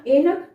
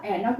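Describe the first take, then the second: First: एनक said with a short e sound; wrong pronunciation. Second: ऐनक said with an open ae sound; correct pronunciation. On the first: Teacher showing students the wrong way to say एनक. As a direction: say एनक with a plain short e, like a mistake. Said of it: "एनक नहीं होता". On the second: Teacher correcting students with the right sound of ऐनक. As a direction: open the vowel wide in ऐनक. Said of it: "ऐनक होता है". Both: Shown as a demonstration.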